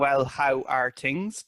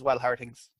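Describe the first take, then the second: First: It is said slowly and carefully. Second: It is said very quickly, run together. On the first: "I'm saying, well, how are things?" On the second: "the way I say it in my local dialect is ... very, very quickly saying it"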